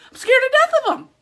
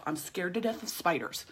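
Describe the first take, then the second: First: Much higher and louder, near a shout; real fear of spiders, declared loud; 1 emphatic declaration. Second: Whispered secret confession; whispered fear of spiders. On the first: Real, not acted. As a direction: blurt it out loud and high. Ramping up about spiders. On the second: Pretend. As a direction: hush it like admitting something embarrassing.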